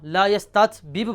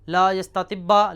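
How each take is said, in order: First: The two like consonants are pronounced separately. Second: The two like consonants are merged into one.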